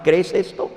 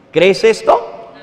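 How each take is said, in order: First: Said in the usual way. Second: Slow, louder, rising "¿Crees esto?"; pressing question. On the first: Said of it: "Eso le preguntó Jesús a Marta". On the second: Real, not acted. Preacher putting the question to the listener, slow and pressing. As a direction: lean on "esto", rising slowly. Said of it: "Y yo te hago a ti la misma pregunta".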